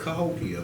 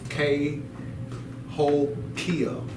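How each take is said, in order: First: The first syllable is a reduced 'kuh' sound. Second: The first syllable sounds like the letter K. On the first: The speaker calls it wrong. "they call it Cahokia, but that's not how it's pronounced" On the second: The speaker calls it right. "It's K Hokia. ... that's how it's pronounced"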